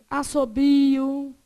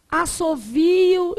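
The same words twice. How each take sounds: First: "Assobio" with a B; second variant. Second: "Assovio" with a V; first variant. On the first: Teacher listing variants, "Assobio" slowly with a B. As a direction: stretch the BI in "Assobio". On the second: Teacher listing variants, "Assovio" slowly with a V. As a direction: stretch the VI in "Assovio". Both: Shown as a demonstration. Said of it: "O que mais que você pode ter?".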